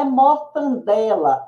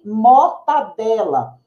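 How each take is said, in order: First: Mortandela with an extra n sound; mortandela, com n a mais; wrong pronunciation. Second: Mortadela said cleanly, no extra n; mortadela, pronúncia correta; correct pronunciation. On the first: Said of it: "Não é mortandela". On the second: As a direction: give the right form mortadela. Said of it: "e sim mortadela". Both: Shown as a demonstration.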